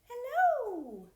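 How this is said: It is said in a very high voice.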